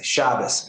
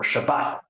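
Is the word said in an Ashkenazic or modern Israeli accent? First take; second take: Ashkenazic; modern Israeli. First: It is said in an Ashkenazic accent. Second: It is said in a modern Israeli accent. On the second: "a conservative rabbi who learns modern Hebrew"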